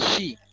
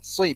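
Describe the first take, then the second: First: The s sound is made as sh. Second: The s sound is heavy and emphatic. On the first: The speaker calls it wrong. "Bukan juga shi" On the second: The speaker calls it right. "Pakai so ya"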